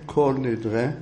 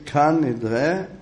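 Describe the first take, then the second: First: The first word is pronounced with an o vowel. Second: The first word is pronounced with an a vowel. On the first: It is the Hebrew form. The speaker calls it wrong. "לא אומרים כל נדרה, טעות ... אם תאמר קול, הוא יש לו אחיזה" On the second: It is the Aramaic form. The speaker calls it right. "כיוון שאנחנו אומרים את זה בלשון ארמית"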